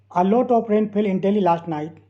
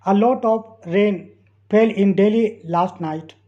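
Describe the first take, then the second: First: Said in the usual way. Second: Very slow, in two chunks; slow dictation. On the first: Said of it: "teacher repeats sentence". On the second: Shown as a demonstration. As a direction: read it slowly for learners to follow. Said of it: "teacher reads sentence slowly".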